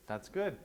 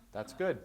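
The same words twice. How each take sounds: The two takes are said the same way.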